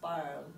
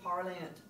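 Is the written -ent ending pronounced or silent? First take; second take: silent; pronounced. First: The ending is silent, like parle. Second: The ending is sounded as a nasal vowel. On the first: The speaker calls it right. "it's parle" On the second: The speaker calls it wrong. "please don't do parlant"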